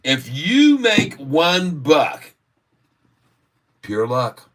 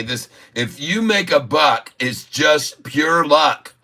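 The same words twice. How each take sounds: First: "If you make one buck" drawn out slowly and high, then "pure luck" dropped flat; the polished slogan, slow and deliberate; slogan delivery. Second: First pass at the slogan, a little higher, with "pure luck" slowed; first try at a catchphrase. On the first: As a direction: announce it like a catchphrase. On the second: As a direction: float the line as if inventing it. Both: Shown as a demonstration. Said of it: "that's my new slogan".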